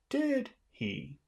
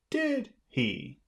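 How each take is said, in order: First: It sounds confident, like expecting agreement. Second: It sounds confident, like expecting agreement.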